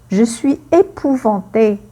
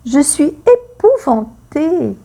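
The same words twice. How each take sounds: First: Said in the usual way. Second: Acted terror. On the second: Shown as a demonstration. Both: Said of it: "La peur".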